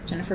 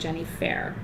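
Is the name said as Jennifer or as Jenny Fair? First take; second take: Jennifer; Jenny Fair. First: The name is said in the usual way. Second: The ending is said like the word fair. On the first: The speaker calls it right. "Jennifer was a very popular name" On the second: The speaker calls it wrong. "my dad couldn't pronounce it. He kept saying Jenny Fair"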